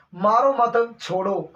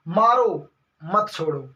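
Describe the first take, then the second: First: Slow मारो मत as one, break, छोड़ो; pause after मत. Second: Slow, drawn मारो, break, lower मत छोड़ो; pause after मारो. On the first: Ordering someone spared, pause after मत. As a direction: join मारो मत, set छोड़ो apart. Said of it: "आपको छोड़ना भैया किसी को". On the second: Speaker wrongly ordering no mercy, pause after मारो. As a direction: set मारो apart, join मत छोड़ो. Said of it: "बोलने वाला उसने ऐसे बोल दिया". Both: Shown as a demonstration.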